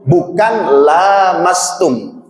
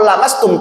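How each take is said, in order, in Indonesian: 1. Vokal pertama dibaca panjang. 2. Vokal pertama dibaca pendek. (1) "bukan panjang"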